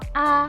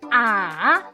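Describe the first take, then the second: First: It is said lightly and softly, unstressed. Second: The pitch dips down first, then rises. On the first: "nada netral itu bacanya ringan dan pelan" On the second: "Nada ketiga turun dulu kemudian naik"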